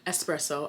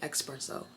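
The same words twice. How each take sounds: First: It begins with an 'es' sound. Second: It begins with an 'ex' sound. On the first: The speaker calls it right. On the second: The speaker calls it wrong.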